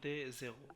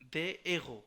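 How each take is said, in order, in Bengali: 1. একটি z ধ্বনি দুটি শব্দকে যুক্ত করে। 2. কোনো z ধ্বনি দুটি শব্দকে যুক্ত করে না। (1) "অনেকে পড়ে যে ce sont des zéros, এটা হবে না" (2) "এখানে জেগো না পড়ে এগো পড়তে হবে"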